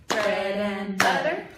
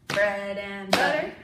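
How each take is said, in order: The two takes are said the same way.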